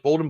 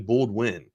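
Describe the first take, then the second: First: The name is said without a w sound. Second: The name is said with a w sound. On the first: The speaker calls it wrong. "it looks like Bolden" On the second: The speaker calls it right. "He would throw a W in there"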